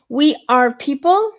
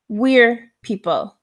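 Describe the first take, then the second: First: We are is said as two full words. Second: We are is squeezed into one syllable. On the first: "when it's not contracted" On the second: "when it's contracted"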